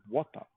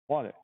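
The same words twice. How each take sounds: First: It is said in a British accent. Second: It is said in an American accent.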